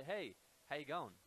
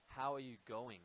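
First: Casual Australian "Hey, how you going", run together; Aussie hello with "how you going" slurred into one; Australian greeting. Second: Said in the usual way. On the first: Shown as a demonstration. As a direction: greet someone in an easy Australian accent. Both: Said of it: "in Australia, we say".

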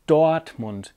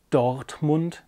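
First: Dortmund with the R dropped, like Doatmund; slow Dortmund, R swallowed. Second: Said in the usual way. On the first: Shown as a demonstration. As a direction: say Dortmund with no R, an A after the O. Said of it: "as if there was an A after the O". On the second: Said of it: "it's Dortmund".

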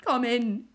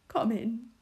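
First: Louder, falling sobbed plea; a second, louder cry of come in; sobbing plea. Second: Sobbing plea. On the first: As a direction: beg through tears. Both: A narrator's reading. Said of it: "he sobbed".

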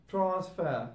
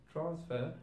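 First: "transfer" said as "transfah"; ah ending. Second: "transfer" ending in an -er. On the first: Teacher showing learners Cockney British, "transfer" ending in ah. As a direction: end "transfer" on an open ah. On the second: Teacher giving the normal English form, "transfer" ending on R. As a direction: finish "transfer" on the R. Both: Shown as a demonstration. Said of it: "sound of R will turn into a sound".

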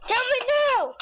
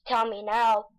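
First: High urgent demand, pitched way up; demanding shout. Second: Said in the usual way. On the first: Shown as a demonstration. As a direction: yell it up high, insistent.

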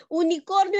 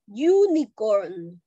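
First: "unicornio" with a Spanish oo-nee-KOR-nyo; Spanish pronunciation. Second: "unicorn" slowly, opening on a consonant "y" sound, YOO-nee-korn; English pronunciation. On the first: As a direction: say "unicornio" as in Spanish, opening on an "oo" vowel. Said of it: "no se dice unicornio". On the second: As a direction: model "unicorn" in English with a drawn-out YOO start. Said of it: "Se dice unicorn". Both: Shown as a demonstration.

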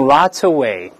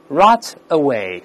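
First: Rot away run together, t joined onto away; linked reading. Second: Rot away slowly, as two separate words. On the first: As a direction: link "rot" straight into "away" as one word. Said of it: "出现连读". (rot away连读，t和away连起来) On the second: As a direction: say "rot" and "away" apart, without linking. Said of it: "但是我们读在一块儿". (rot和away分开读，不连读) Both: Shown as a demonstration.

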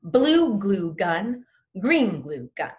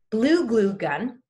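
First: Slow "Blue glue gun", louder, each "glue" hit; stress on glue. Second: "glue" hit hard and slow; slow, loud "blue glue gun" with every word punched; stress on glue. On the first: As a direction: hit every "glue" crisply. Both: Shown as a demonstration. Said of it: "Really hit, really hit glue".

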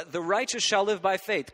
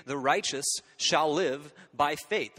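First: "shall" punched higher and louder in "The righteous shall live by faith"; emphatic "shall", then the rest falls away; stress on shall. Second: "The righteous shall live by faith" read slowly, landing on "live"; slow, weighty "live" as the key word; stress on live. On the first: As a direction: hit "shall" to point to the future. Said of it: "they put different emphasis on different syllables". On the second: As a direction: lean on "live" and let it fall. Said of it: "The first is the very plain reading". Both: Shown as a demonstration.

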